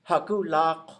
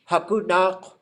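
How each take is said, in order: First: The middle consonant is a voiced L sound. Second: The middle consonant is an N sound. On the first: This is how one older speaker said it. "she calls it lak" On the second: This is the usual way to say it. "you would expect the line to go"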